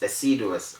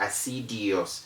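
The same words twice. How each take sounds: First: No extra 'ee' sound follows the d. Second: An extra 'ee' sound follows the d. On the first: The speaker calls it right. "the word doesn't have an I after the D" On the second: The speaker calls it wrong. "It's not assiduous"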